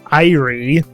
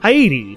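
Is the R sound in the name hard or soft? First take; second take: hard; soft. First: The R is pronounced as a hard R. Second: The R is pronounced as a soft R. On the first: The speaker calls it wrong. "it's not Irie" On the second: The speaker calls it right. "ever so soft is the R with her name"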